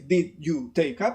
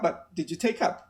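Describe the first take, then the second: First: The words are said separately, one by one. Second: The words are run together as one group. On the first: The speaker calls it wrong. "I don't say" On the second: The speaker calls it right. "the correct intonation in English, which is in groups"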